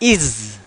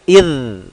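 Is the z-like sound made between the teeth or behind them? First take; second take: behind teeth; between teeth. First: The consonant sounds like a plain buzzing z. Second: The consonant sounds soft, like th in this. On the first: The speaker calls it wrong. "Bukan iz. Kalau iz larinya ke zai" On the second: The speaker calls it right. "ujung lidahnya bersentuhan dengan ujung gigi"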